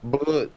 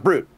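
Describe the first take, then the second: First: The r is a throaty French-style r. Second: The r is a plain English-style r. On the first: The speaker calls it right. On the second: The speaker calls it wrong.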